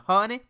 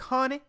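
First: It is said in a put-on Southern accent. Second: It is said in the speaker's plain accent.

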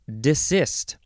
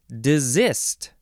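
First: The word is said with an S sound. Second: The word is said with a Z sound.

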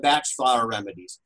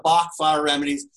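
First: The name rhymes with match. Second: The name does not rhyme with match. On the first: This is how the man himself said his name. The speaker calls it right. "I prefer to call them the batch flower remedies" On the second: This is the common American way of saying it. The speaker calls it wrong. "most Americans call it the Bach flower remedies"

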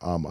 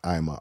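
First: The first syllable sounds like 'ah'. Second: The first syllable sounds like 'eye'. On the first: The speaker calls it right. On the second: The speaker calls it wrong. "Not I'ma"

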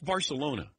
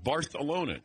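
First: The middle consonant is said as plain s. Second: The middle consonant is said with a lisp. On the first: "it's Barcelona to us" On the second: "you got a speech impediment?"

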